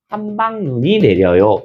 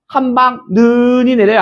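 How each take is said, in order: First: The vowel in 눈 is said short. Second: The vowel in 눈 is drawn out long. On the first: The speaker calls it right. "이렇게 합니다" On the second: The speaker calls it wrong. "안 한다고요"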